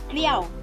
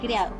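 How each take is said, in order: First: A sound in the middle of the word is dropped. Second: Every sound in the middle of the word is kept. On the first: "Cuando la pérdida ocurre en el medio, se llama síncopa. Por ejemplo" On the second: "en vez de decir criado"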